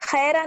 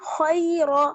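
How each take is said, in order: First: The word ends with an added 'a' vowel. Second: The word ends cleanly on the 'r' consonant. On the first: The speaker calls it wrong. "खैरा नहीं पढ़ेंगे" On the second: The speaker calls it right. "बल्कि खैर"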